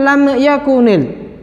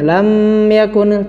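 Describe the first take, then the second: First: The m is released with a bouncing echo. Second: The lips stay closed on the m too long. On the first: "tidak boleh dipantulkan" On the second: "Tidak boleh berlama-lama menempelkannya. ... tidak ya"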